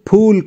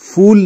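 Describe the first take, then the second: First: It starts with an aspirated p sound. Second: It starts with an f sound. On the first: It means a flower. The speaker calls it right. "मैंने फूल कहा" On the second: It sounds like the English word fool. The speaker calls it wrong. "फूल नहीं। अगर मैं इसे फूल कहूंगा तो ये अंग्रेजी वाला फूल हो जाएगा।"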